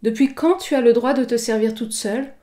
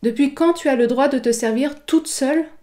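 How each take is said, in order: First: The word quand carries extra emphasis. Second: The word toute carries extra emphasis. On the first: "je peux très bien accentuer « quand »" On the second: "je peux accentuer « toute »"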